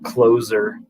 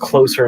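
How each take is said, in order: First: The middle consonant is a buzzing z sound. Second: The middle consonant is a hissing s sound. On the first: The word means one who closes. The speaker calls it wrong. "not closer, uh, like one that closes the store" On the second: The word means nearer. The speaker calls it right. "I'm assuming it's closer"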